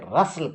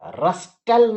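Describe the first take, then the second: First: The t sound in the middle is silent. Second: The t sound in the middle is pronounced. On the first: The speaker calls it right. "रसल कह दीजिए, टी silent है" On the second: The speaker calls it wrong. "रस्टल नहीं कह के"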